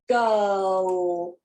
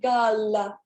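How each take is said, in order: First: The final L is held as a dark L. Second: The final L is released like a light L. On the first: The speaker calls it right. "I hold it. Girl. I don't release it" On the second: The speaker calls it wrong. "notice that I don't say girl. Okay, I don't release it like a light L"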